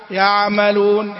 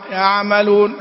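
No difference in how they are said.

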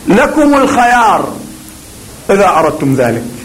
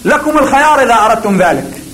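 First: A short pause sets off the first two words. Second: The sentence runs on with no pause. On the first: The speaker calls it right. "صمت خفيف ثم يقول لكم الخيار وبعدين يتحدث" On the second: The speaker calls it wrong. "ما فيها معنى"

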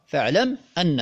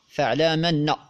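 First: The m is silent and the glottal stop is kept. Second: The m carries an a-vowel and the glottal stop drops. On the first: This is the original form of the words. "أما الأصل فهو" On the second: This is the Warsh reading with the vowel moved. "نقلت حركة الهمزة إلى الميم الساكنة ثم حذفت الهمزة فصار"

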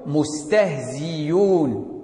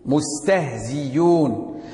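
First: The glottal stop is replaced by a clear y. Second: The glottal stop is replaced by a clear y.

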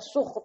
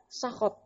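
First: The first vowel is a rounded 'u' sound. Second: The first vowel is an open 'a' sound. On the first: "Juga dibaca suh" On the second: "Dibaca bagaimana? Sakhot"

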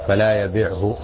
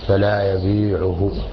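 First: The verb has a shortened middle vowel. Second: The verb keeps a long vowel in the middle. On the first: The verb is read as a direct prohibition. The speaker calls it right. "وإذا كان مجزوما فيكون هكذا فلا يبيعه كما جاءت به الرواية" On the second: The verb is read as a negation with the force of a prohibition. The speaker calls it wrong. "الظاهر أنه خطأ"

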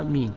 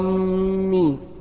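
First: The m sound is short and single. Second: The m sound is doubled and held. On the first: The speaker calls it right. "بالمد هكذا، آمين وبالتخفيف" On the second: The speaker calls it wrong. "لو شدد الميم غير المعنى ... لو قال آمين غلط"

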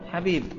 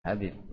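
First: The first sound is a harsh, throaty h. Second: The first sound is a plain, breathy h. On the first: The speaker calls it right. "Harusnya apa?" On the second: The speaker calls it wrong. "Kayaknya dia sudah ya sudah bukan keturunan Rasul"

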